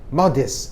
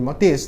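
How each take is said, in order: First: The stress is on the first syllable. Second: The stress is on the second syllable. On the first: The speaker calls it right. "tapi modest" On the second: The speaker calls it wrong. "nggak boleh modest"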